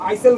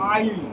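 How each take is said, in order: First: An 's' sound is pronounced in the word. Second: No 's' sound is pronounced in the word. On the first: The speaker calls it wrong. "এটা কিন্তু আইসেল বলবি না কেউ" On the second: The speaker calls it right. "এস এর উচ্চারণ নাই"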